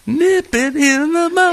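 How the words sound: It is said in an imitated character voice.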